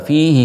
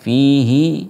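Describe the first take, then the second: First: The final vowel of fihi is kept short. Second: The final vowel of fihi is drawn out long. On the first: "dibaca pendek" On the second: "membaca panjang fihi muhana"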